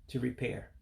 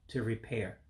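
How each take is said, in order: Both takes have the same delivery.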